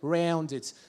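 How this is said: It is said in an Australian accent.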